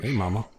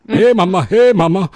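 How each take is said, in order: First: Said in the usual way. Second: Belting out hey mama, higher and louder; calling out to the crowd, big and loud. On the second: Pretend. Host leading the chat call-out, loud and high. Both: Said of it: "Somebody say".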